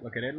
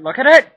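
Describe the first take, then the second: First: Said in the usual way. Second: High, loud excited yell; excited shout. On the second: Real, not acted. Cook shows off the filling, shouting with excitement. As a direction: shout it with delight.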